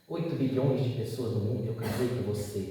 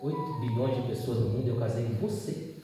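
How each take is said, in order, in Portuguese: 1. É dita como uma exclamação de alegria. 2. É dita como uma pergunta de dúvida. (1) "De exclamação" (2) "virou interrogação"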